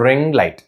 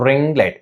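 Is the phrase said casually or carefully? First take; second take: carefully; carefully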